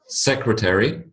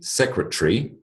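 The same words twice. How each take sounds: First: The word is said with four syllables. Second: The word is said with three syllables. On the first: "a four-syllable word" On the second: "a three-syllable word"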